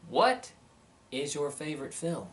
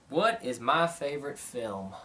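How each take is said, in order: First: A question read out with a big accent on "What"; emphatic question read. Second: Said in the usual way. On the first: Shown as a demonstration. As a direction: hit the word "What" hard, then let the rest of the question fall. Reading out a viewer's question.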